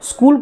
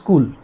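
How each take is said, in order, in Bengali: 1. শব্দটি তার আদর্শ রূপে উচ্চারিত হয়েছে। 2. শব্দটি উচ্চারণে ধ্বনি পরিবর্তিত হয়েছে। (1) "স্কুল কথাটি উচ্চারণ করতে গিয়ে" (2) "আমরা বলে ফেলি"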